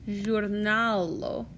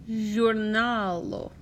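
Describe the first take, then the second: Both takes have the same delivery.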